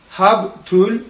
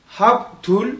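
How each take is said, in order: Both takes have the same delivery.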